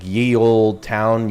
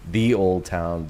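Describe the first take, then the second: First: The first word begins with a y sound. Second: The first word begins with a th sound. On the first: The speaker calls it wrong. "would be probably ye" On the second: The speaker calls it right. "It's actually supposed to be pronounced the"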